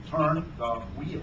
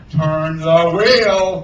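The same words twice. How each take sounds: First: Softly spoken, measured command; wary order. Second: Loud, very slow, drawn-out roar; roaring order. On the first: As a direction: give the order quietly from a step back. Hook orders while stepping back. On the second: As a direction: roar it word by word at the mate. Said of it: "Hook roared". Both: A narrator's reading.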